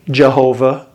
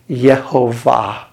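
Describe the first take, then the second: First: The word begins with a hard J sound. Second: The word begins with a Y sound. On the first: This is how English speakers say it. "We pronounce a hard J" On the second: This is how German speakers say it. "They say Yehovah"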